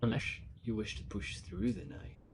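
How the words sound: It is said in a spooky, ominous way.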